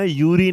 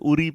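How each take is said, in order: First: The name begins with a 'yoo' sound. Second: The name begins with an 'oo' sound. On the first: The speaker calls it wrong. "यूरी नहीं होता" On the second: The speaker calls it right. "हम इसे उरी पढ़ते हैं"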